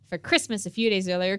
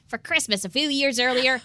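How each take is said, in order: First: It is said in his normal voice. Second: It is said in a little boy voice.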